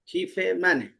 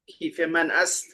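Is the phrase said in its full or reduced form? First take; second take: reduced; full. First: The final word is merged into one syllable. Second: The phrase ends with a separate full final word. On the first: This is the casual spoken form. "क्लोकियल स्टाइल में" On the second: This is the formal written form. "के बजाय"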